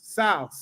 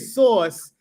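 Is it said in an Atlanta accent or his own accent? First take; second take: Atlanta accent; own accent. First: It is said in an Atlanta accent. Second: It is said in the speaker's own accent.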